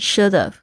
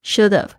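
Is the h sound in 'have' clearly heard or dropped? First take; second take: dropped; dropped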